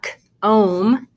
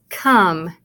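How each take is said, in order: First: The vowel is a long 'oh' sound. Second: The vowel is a short 'uh' sound. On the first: The speaker calls it wrong. "tell the O to say your name because it's not k-ohm" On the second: The speaker calls it right. "It's come, ... sounds like the short U sound"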